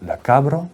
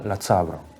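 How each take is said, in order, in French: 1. Le nom commence par un k simple. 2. Le nom commence par un son ts. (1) "Au lieu de dire la cabre" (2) "la palatalisation euh, de, de K ... on aura la tsabre"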